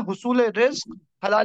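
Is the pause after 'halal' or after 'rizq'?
after rizq. The pause comes after rizq, before halal. Earning any livelihood is worship, lawful or not. The speaker calls it wrong. "अगर हम ये पढ़ दें ना"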